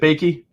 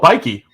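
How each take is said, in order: First: The first vowel sounds like in 'bake'. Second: The first vowel sounds like in 'bike'. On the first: The speaker calls it wrong. "am I saying that right?" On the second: The speaker calls it right. "like Nike with a B"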